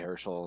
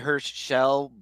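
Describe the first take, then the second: First: The name is said straight through without pause. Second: A tiny pause splits the name in two. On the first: Other people often say it this way. "They'll just say Herschel" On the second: This is how the name's owner says it. "I usually say Herschel with like a it's a very tiny uh pause"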